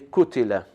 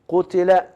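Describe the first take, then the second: First: The first consonant is a front k sound. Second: The first consonant is a deep uvular q. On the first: The speaker calls it wrong. "They pronounce as letter kaf" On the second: The speaker calls it right. "instead of saying qutila"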